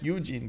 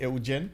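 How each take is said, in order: First: The name is pronounced the English way. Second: The name is pronounced the Romanian way. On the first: The speaker calls it wrong. "saying the name in um, uh, English" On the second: The speaker calls it right. "but it's actually Eugen"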